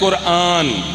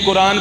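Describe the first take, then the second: First: The vowel after the r is drawn out. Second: The vowel after the r is clipped short. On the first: "अलिफ के ऊपर मद है" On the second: "ये कुरान भी पढ़ लेते हैं"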